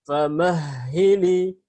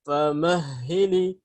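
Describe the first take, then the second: The two takes are said the same way.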